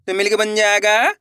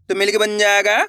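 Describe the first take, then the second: No difference in how they are said.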